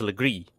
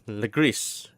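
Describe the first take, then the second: First: "legris" with silent S, luh-GREE; French-style "legris"; French pronunciation. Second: "legris" with the final S sounded, luh-GREESS; anglicized "legris"; English pronunciation. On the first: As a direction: say "legris" ending on a long EE. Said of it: "it's actually pronounced legris". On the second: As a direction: say "legris" with a hissed S at the end. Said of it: "if it's in English". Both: Shown as a demonstration.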